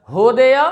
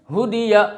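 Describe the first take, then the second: First: होदिया as ho-de-ya with open vowels; majhul, wrong way. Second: हुदिया with short closed 'u' and 'i'; quick, pure vowels in हुदिया; maruf way. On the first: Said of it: "नहीं पढ़ना आपको". (होदिया, मजहूल आवाज़ में) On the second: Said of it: "क्या है दोस्तों?". (हुदिया मारूफ आवाज़ में) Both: Shown as a demonstration.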